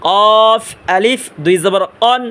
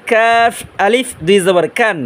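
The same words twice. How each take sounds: First: কফ heavy, from the very back of the tongue; thick কফ. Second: কাফ with a light k, a little forward of the tongue root; slow recitation, thin k in কান. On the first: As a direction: draw out a full, dark কফ. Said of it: "এটা মোটা আওয়াজে". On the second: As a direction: keep কাফ light and drawn out. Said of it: "এটা চিকন আওয়াজে". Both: Shown as a demonstration.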